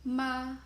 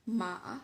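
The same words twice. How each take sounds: First: The pitch stays high and level. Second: The pitch dips down and then rises. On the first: "high level tone" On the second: "falling rising tone"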